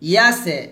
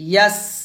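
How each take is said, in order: First: An extra vowel is added after the s. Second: The word ends cleanly on the s sound. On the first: The speaker calls it wrong. "ইয়াসে এটা কিন্তু না" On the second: The speaker calls it right. "ইয়াস এভাবে"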